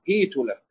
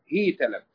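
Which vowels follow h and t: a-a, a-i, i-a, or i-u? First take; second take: i-u; i-a. First: The h takes i and the t takes u. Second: The h takes i and the t takes a. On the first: "بكسر أوله وضم آخره" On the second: "بكسر أوله وفتح آخره"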